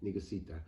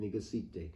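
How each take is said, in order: First: "Negusita" ending in an open "-ah" sound; pronounced with A ending. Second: "Negusite" ending in a long "-ay" sound; pronounced with E ending. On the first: Explaining the female title to viewers, "Negusita" ending in "ah". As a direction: say "Negusita" with the last vowel as "ah". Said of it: "some with an A at the end". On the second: Explaining the female title to viewers, "Negusite" ending in "ay". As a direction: say "Negusite" with the last vowel as "ay". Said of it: "some pronounce with an E at the end". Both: Shown as a demonstration.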